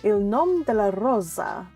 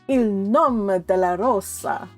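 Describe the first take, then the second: First: It is said with a Spanish-sounding rolled R. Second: It is said with an exaggerated Italian accent. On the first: "I rolled my R like a Spanish speaker" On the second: "that's the best way I can get out the Italians"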